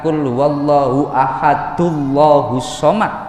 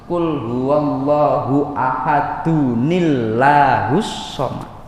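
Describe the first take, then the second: First: The words join with no 'ni' syllable between. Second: The words join with an added 'ni' syllable. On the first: The speaker calls it wrong. "itu bukan" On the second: The speaker calls it right.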